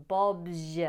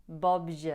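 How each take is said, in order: The two takes are said the same way.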